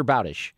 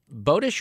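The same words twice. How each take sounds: First: Bowdish with an OW sound, BOW-dish; alternative pronunciation. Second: Bowdish with a long O, BOH-dish; first pronunciation option. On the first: Host offers guest the other reading of the name, Bowdish as BOW-dish. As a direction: say Bowdish with "bow" rhyming with cow. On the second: Host offers guest one reading of the name, Bowdish as BOH-dish. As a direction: say Bowdish with "bow" as in rainbow. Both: Shown as a demonstration. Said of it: "Is it Charles Bowdish or Bowdish".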